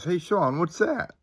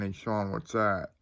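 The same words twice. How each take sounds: First: High-pitched call, rising at the end; sister calling. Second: Said in the usual way. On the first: Retold or imitated. Sister to brother in a dark graveyard, high questioning call.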